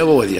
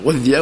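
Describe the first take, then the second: First: وغذي with a single, light ذ; وغذي, the ذ left short and undoubled; light consonant. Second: غذي with a doubled, held ذ; غذي, leaning on a long double ذ; doubled consonant. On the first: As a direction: say وغذي without doubling the ذ. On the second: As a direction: say غذي with a shadda on the ذ. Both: Shown as a demonstration. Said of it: "يشدد ويخفف".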